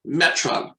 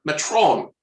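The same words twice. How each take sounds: First: Said in the usual way. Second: Metron with a long, full "trone" ending; Shatner's pronunciation. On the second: Retold or imitated. Host showing how Shatner says the word, Metron ending in "trome". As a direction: say Metron like Shatner, rounding the last vowel to "oh". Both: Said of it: "the way Shatner pronounces the word".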